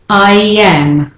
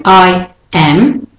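First: I am linked smoothly as I-yam; flowing y glide. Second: I am as two detached words; staccato. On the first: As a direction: let I am flow through a y. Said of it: "It's not as flowing". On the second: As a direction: put a clean break between I and am. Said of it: "it's more staccato". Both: Shown as a demonstration.

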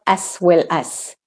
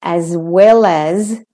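First: "as well as" with hissed s, ass well ass; wrong S sounds. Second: Slow "as well as" with buzzing z, az well az; corrected "as well as", drawn out with z; voiced Z's. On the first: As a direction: end each "as" on unvoiced s. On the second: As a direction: end each "as" on a voiced z. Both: Shown as a demonstration. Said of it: "not as well as".

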